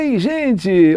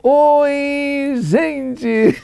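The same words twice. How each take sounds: First: It is said briefly in a plain way. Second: It is stretched out like a goal call.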